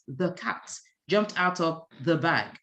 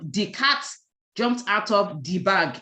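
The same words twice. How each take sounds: First: 'The' starts with a TH sound. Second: 'The' starts with a D sound. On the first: The speaker calls it right. "It is" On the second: The speaker calls it wrong. "don't use D instead of H and T H. So don't say"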